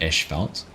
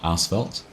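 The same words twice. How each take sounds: First: It is said in a New Zealand pronunciation. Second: It is said in a non-New Zealand pronunciation. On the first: "That's how we pronounce it in New Zealand" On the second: "Not asphalt"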